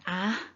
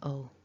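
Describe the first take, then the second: First: The ending is a full a vowel without l. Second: The ending is a weak schwa followed by l. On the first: The speaker calls it wrong. "it's not an a" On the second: The speaker calls it right. "it's an ul, it's a schwa"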